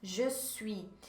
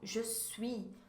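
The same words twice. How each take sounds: The two takes are said the same way.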